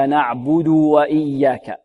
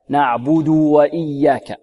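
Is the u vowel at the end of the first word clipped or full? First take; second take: full; full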